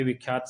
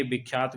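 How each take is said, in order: First: विख्यात said with a v sound, vikhyaat; the correct विख्यात; correct pronunciation. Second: विख्यात said with a b sound, bikhyaat; विख्यात starting with b instead of v; the common wrong विख्यात; wrong pronunciation. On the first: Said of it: "सही है". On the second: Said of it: "गलत है". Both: Shown as a demonstration.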